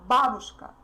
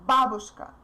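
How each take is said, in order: Both takes have the same delivery.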